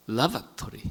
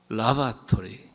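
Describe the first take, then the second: First: 라바토리 with the stress on the second syllable; other stress. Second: 라바토리 very slow, stress on the first syllable 라; British stress. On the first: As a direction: say 라바토리 leaning on the 바. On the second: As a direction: drawl 라바토리 with the weight on 라, the royal British way. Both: Shown as a demonstration. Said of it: "앞에 액센트가 있냐, 두 번째 액센트가 있느냐".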